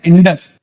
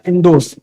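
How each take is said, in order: First: Said in the usual way. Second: इंडोस with a clear o sound in the second syllable; Greek-style pronunciation. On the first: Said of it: "इंडस को basically pronounce किया जाता था". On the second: Shown as a demonstration. Teacher showing students the Greek way of saying the name, with a clear o in इंडोस. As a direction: say इंडोस, ending in os and not in us. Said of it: "pronounce किया जाता था इंडोस".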